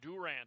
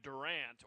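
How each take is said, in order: First: The name is said the local way. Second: The name is said the outsider way.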